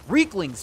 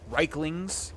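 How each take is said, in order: First: The first syllable sounds like 'reek'. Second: The first syllable sounds like 'Reich'. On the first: The speaker calls it right. "Reeklings, damn it" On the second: The speaker calls it wrong. "Why do I keep calling them Reiklings?"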